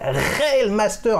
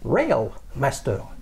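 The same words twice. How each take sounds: First: The name is pronounced with French sounds. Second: The name is pronounced with English sounds. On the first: "avec un R" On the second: "si on prononce en anglais"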